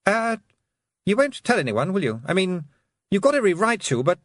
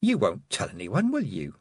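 First: Put-on high, anxious boyish pleading; nervous Roland voice. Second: Sweetly menacing. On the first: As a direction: beg nervously like a guilty boy. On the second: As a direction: ask sweetly with hidden menace. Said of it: "one of her sweetest smiles, which could be quite scary". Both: A narrator's reading.

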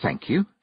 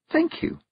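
First: Said in the usual way. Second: High, sugary little thanks; sweetly. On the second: A narrator's reading. Girl thanking a blushing noble, sweetly. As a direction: thank him with put-on sweetness. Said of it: "said Tiffany sweetly".

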